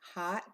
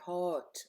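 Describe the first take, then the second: First: The vowel sounds like an open 'ah'. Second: The vowel sounds like a rounded 'oh'. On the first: The speaker calls it right. "it is pronounced with an ah sound" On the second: The speaker calls it wrong. "have always pronounced hot with an O sound"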